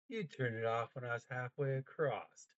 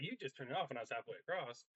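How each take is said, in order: First: It is said slowly with dramatic pauses. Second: It is rushed through without any pauses.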